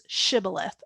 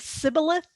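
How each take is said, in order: First: The word begins with a sh sound. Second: The word begins with a plain s sound. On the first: The speaker calls it right. "a sheen" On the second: The speaker calls it wrong. "a scene"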